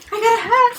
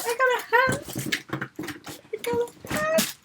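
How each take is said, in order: First: High, excited exclamation in full voice; thrilled. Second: Tiny, high, soft squeak; overcome with delight. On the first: Fan who got a hat, thrilled exclamation. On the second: Fan who got a hat, overcome hushed squeal. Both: Real, not acted.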